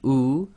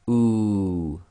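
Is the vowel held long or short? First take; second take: short; long. First: The vowel is held for one short count. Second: The vowel is held for two counts. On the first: "one long" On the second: "to two long"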